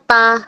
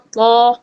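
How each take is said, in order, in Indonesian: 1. Suku kata ini diucapkan lebih ringan, dengan a yang terbuka. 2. Suku kata ini diucapkan lebih berat, terdengar seperti to. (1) "harusnya bukan ta" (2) "dibacanya to, to, lebih tebal lagi"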